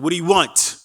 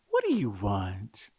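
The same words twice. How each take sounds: First: It is said in a harsh, angry tone. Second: It is said in a gentle, friendly tone.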